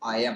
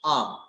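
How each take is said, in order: First: Both words are said fully as two syllables. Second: It is merged into one syllable with a long vowel. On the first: "जब आई के साथ लग जाता है एम तो हम इसे प्रोनाउंस करते हैं" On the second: "जब आपकी फ्लुएंसी थोड़ी और ज्यादा हो जाएगी"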